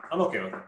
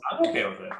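First: Said in the usual way. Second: Much higher mock-casual line; squeaky falsetto take. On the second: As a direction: toss it off in a squeaky high voice.

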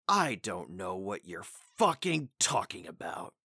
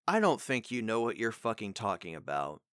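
First: Slow, weighted "I don't know what you're fucking talking about" with stress on I; slower acted line. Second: Said in the usual way. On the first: Shown as a demonstration. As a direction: lean into it like a show character. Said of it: "the way they say it in the show could be like". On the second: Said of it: "let me try a sentence here".

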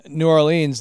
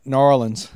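First: Said in the usual way. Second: New Orleans run together as "NOR-linz"; local New Orleans pronunciation. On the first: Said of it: "they pronounce it". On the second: Shown as a demonstration. Minnesotan shows how locals say New Orleans, slurred into "NOR-linz". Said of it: "they, they pronounce it".

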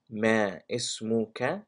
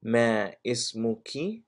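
First: اسمك ending in "ka", tune rising; masculine ke ending. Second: اسمك ending in "ki", tune rising; feminine ki ending. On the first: Teacher's last practice round, اسمك ending "ka". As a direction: say اسمك with an open final "ka", as a question. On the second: Teacher's last practice round, اسمك ending "ki". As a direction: say اسمك with a final "ee", as a question. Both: Shown as a demonstration. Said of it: "say 'em one more time".

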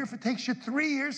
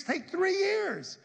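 First: Said in the usual way. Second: "take three years" high and drawn out, stress on years; slow emphasis. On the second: Real, not acted.

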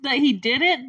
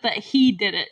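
First: "did" punched in "that he did it"; "did" stands out over the other words; stress on did. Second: "he" punched in "that he did it"; "he" stands out as the one who matters; stress on he. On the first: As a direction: lean hard on the verb "did". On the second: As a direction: lean hard on "he", then let "did it" drop. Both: Real, not acted. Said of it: "not just that he did it, but that he did it".

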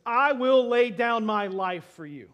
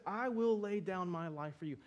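First: Loud, slow, fervent promise; earnest loud vow. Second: Said in the usual way. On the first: Acted. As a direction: swear it with everything you have. Peter vows loyalty to Jesus.

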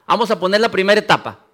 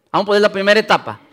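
The two takes are said the same way.

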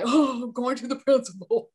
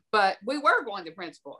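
First: Hammed-up worried goody-goody; mock goody-goody dread. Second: Said in the usual way. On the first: Goody-goody called in by headmistress, mock dread. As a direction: put on a good pupil's dismay. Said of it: "I'm such a goody goody".

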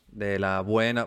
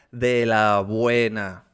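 First: Said in the usual way. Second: "de la buena" drawn out slowly and louder; slow emphasis. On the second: Shown as a demonstration. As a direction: stretch "de la buena" slow and strong. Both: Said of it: "mira, comedia".

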